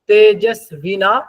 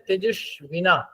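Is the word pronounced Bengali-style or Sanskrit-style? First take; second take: Sanskrit-style; Bengali-style. First: The word is pronounced in a Sanskrit way. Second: The word is pronounced in a Bengali way. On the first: "সংস্কৃতের মতন করে যদি বলি" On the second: "বাংলায় বললে"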